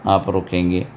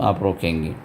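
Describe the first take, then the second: Both takes have the same delivery.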